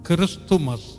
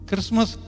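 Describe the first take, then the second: First: The word is said with three syllables. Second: The word is said with two syllables. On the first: This is the proper full form. The speaker calls it right. "அதுதான் சரி" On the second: This is the everyday colloquial form. The speaker calls it wrong. "அது வந்து நடப்பு தமிழ்"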